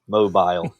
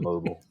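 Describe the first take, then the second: First: It is said with a British English pronunciation. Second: It is said with an American English pronunciation. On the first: "I often revert back to my my English and Scouse ways" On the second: "instead of"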